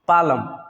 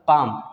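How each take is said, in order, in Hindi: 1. शब्द में L की ध्वनि बोली जाती है। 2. शब्द में से L की ध्वनि छोड़ दी जाती है। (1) "लेकिन बिल्कुल गलत है" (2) "इसका सही साउंड होगा पाम"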